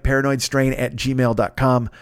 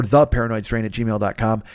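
First: Said in the usual way. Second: "the" said separately and emphatically; stress on THE. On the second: Real, not acted. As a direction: lean on "the" as a correction. Corrects address by adding THE.

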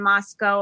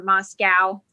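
First: First version, Moscow as MOS-coe. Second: Alternative version, Moscow as MOS-cow. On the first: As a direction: say Moscow ending in "oh". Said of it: "It's Moscow, right?". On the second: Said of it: "it's not Moscow". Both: Shown as a demonstration.

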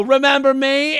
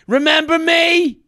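First: Aggressive greeting. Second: Thrust the question at him; aggressive greeting. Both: Retold or imitated. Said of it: "such an aggressive way".

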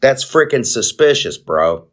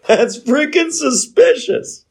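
First: Said in the usual way. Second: Much higher, slower, squeaky laughing take; laughing, high-pitched mock disbelief; laughing repeat. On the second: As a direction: repeat it cracking up, voice shooting way up.

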